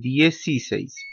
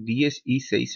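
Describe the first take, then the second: First: The words run together into one linked word. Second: The three words are said as separate parts.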